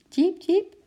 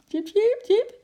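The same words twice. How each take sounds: First: Hoog piepend diertje, een beetje angstig; angstig gepiep. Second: High, loud, happy little animal squeak; cheerful chirping. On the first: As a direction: piep hoog als een bang beestje. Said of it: "piepte Eki heel zacht en angstig". (hoog, angstig diergepiep, niet echt zacht) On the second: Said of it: "piepte Eki vrolijk". (vrolijk, hoog gepiep) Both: A narrator's reading.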